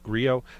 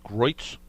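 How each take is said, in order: First: The name sounds like 'Gree-oh' with two syllables. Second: The name sounds like 'Groyts' with one syllable. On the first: The speaker calls it right. "it's pronounced Grio" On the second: The speaker calls it wrong. "I always thought it was Groit's"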